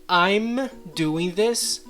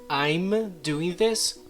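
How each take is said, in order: The two takes are said the same way.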